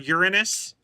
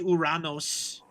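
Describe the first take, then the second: First: The name ends with an 'us' sound. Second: The name ends with an 'os' sound. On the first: This is the later, modified form of the name. The speaker calls it wrong. "they've lazied it into Uranus" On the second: This is the original Greek form of the name. The speaker calls it right. "So it should be Uranos"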